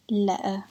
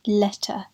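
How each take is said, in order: First: "letter" with a throat catch for the t; "letter" said as le'uh; glottal stop. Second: "Letter" with a crisp released t; sounded T. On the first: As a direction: drop the t in "letter", leaving a stop. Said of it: "Like that". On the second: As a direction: pronounce the t in "Letter". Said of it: "something we do in words like". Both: Shown as a demonstration.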